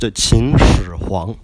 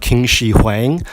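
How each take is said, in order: First: The first word starts with a ch-like sound. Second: The first word starts with a hard k sound. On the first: The speaker calls it right. "It should be pronounced Qin Shi Huang" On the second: The speaker calls it wrong. "because that is really off"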